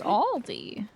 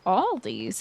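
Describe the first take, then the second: First: The name ends on a vowel, no s. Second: The name ends with an added s sound. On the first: The speaker calls it right. "It's Aldi" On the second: The speaker calls it wrong. "my mom's like yoga friends were like Aldi's"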